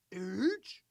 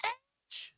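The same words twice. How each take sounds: First: "H" low and soft, rising at the end; puzzled, low-voiced "H"; unsure repeating. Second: High-pitched call from another room; mock distant yell; screamed from afar. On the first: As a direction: echo "H" quietly as a slow question. Man slowly repeats letter while typing. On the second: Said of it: "screaming from the other side".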